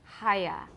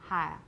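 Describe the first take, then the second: First: The vowel glides through three vowel sounds. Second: The vowel is smoothed to two sounds. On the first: "You can say" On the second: "in colloquial British, you'll probably say"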